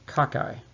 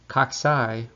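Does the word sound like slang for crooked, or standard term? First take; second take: slang; standard term. First: It sounds like an informal word meaning crooked. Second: It sounds like the standard microbiology term. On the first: It names an informal word for crooked. The speaker calls it wrong. "Occasionally I hear students refer to cocci by pronouncing it cocci, but cocci would refer to, it's an informal word for crooked" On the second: It names the spherical bacteria. The speaker calls it right. "Cocci would be much more readily understood by people who are listening or speaking about microbiology"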